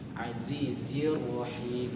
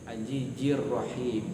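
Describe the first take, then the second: First: The consonants in the first word sound like z. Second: The consonants in the first word sound like j. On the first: The speaker calls it right. "hurufnya bukan jim tapi zai" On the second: The speaker calls it wrong. "nggak boleh baca dengan tanzilal ajijil, ajijir rahim, karena itu situ hurufnya bukan jim tapi zai"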